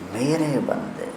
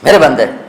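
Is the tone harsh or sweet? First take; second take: sweet; harsh. First: It is said in a sweet, tender tone. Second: It is said in a harsh, commanding tone. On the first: The speaker is addressing someone with love. The speaker calls it right. "इसमें लहजे को मीठा बनाने की कोशिश कर रहा हूँ" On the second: A mighty ruler is speaking to his slaves. The speaker calls it wrong. "तो लगता है कोई बड़ा ताकतवर जाबिर हाकिम अपने गुलामों से बात कर रहा है"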